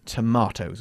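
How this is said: It is said in a British accent. "in the U K, we say tomatoes"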